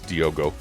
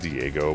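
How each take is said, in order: First: The name is pronounced as Diogo. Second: The name is pronounced as Diego. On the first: The speaker calls it right. "but now I understand it's Diogo" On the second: The speaker calls it wrong. "I was saying it wrong before"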